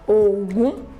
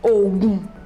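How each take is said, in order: First: The pitch goes from low to high. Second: The pitch stays low on both syllables. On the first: "Do, Mi" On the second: "Do, Do"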